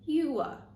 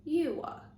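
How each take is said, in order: First: Two syllables with a long oo and a schwa. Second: The same.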